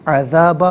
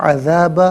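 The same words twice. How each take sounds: The two takes are said the same way.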